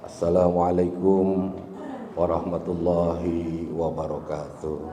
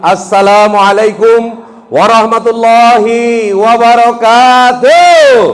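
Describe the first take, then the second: First: It is said flatly, without enthusiasm. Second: It is said lively, with enthusiasm.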